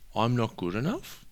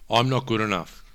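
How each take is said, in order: First: It is said as a rising question. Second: It is said as a flat statement.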